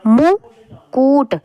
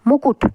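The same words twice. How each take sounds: First: मुकुट with the u sounds dragged long; teacher mimicking the children's long u in मुकुट; stretched wrong मुकुट. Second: मुकुट with both u's short and quick; teacher modelling the short u's in मुकुट. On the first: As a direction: draw out the u's in मुकुट. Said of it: "गलती से ऐसे लिख देते हैं". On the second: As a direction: say मुकुट briskly. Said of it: "थोड़ी थोड़ी आवाज़". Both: Shown as a demonstration.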